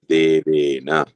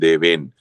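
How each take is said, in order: First: The final vowel is fully pronounced after n. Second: The final vowel is dropped, ending on n. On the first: The speaker calls it right. "here we have to pronounce that whole letter" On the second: The speaker calls it wrong. "maybe in Hindi, Deven, right? This will become Deven"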